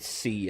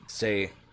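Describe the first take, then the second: First: The word ends in an 'ee' vowel. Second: The word ends in an 'ay' vowel. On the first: "I'll probably try to say C" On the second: "habitually want to pronounce it Zay, because it seems German"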